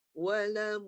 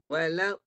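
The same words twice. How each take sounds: First: "Walam" a little higher, voice running on; sound keeps flowing. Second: "Walau" halted abruptly at the end; sound held back. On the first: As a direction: let "Walam" flow on without a stop. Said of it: "Suara dia kena jalan". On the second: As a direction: demonstrate the mistake, "Walau" with the voice stopping. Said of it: "Bila tahan, dia terberhenti suara". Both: Shown as a demonstration.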